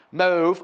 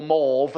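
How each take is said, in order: First: Said in the usual way. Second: Mauve said the posh way, with a long rounded "maw" vowel. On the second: Shown as a demonstration. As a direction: put on a posh accent for mauve. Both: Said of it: "as they say in posh places".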